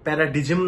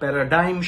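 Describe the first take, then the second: First: The middle is said like 'dig', g sounded. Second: The middle is said like 'dime', g silent. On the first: The speaker calls it wrong. "প্যারাডিজম নয়" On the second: The speaker calls it right. "পি প্রোনাউন্সিয়েশনটা প্যারাডাইম"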